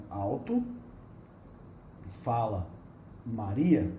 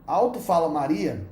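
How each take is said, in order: First: Each word alone, with long pauses; "alto", pausa, "fala", pausa, "Maria", bem devagar; slow word by word. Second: Said in the usual way. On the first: Shown as a demonstration. (separando "alto fala Maria" palavra por palavra com pausas longas) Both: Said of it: "ou seja".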